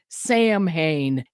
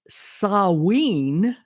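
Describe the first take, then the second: First: The word is read the way it looks in English. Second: The word is said unlike its English-looking spelling. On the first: The speaker calls it wrong. "if you look at it in, in English, it would look like you say it Samhain" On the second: The speaker calls it right. "It's pronounced Samhain"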